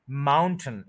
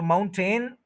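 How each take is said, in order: First: माउंटेन as MOUN-tn, no vowel in the ending; corrected pronunciation. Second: माउंटेन with a full 'ten' at the end; common mispronunciation. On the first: Teacher giving learners the fix, माउंटेन with reduced 'tn' ending. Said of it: "इसका pronunciation है". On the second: Teacher quoting the learners' habit, माउंटेन with full-vowel 'ten'. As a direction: sound out the second vowel of माउंटेन, moun-TEN. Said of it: "आज से पहले अगर आप कहते हैं". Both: Shown as a demonstration.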